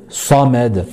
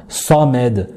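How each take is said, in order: The two takes are said the same way.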